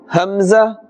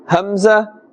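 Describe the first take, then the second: Both takes have the same delivery.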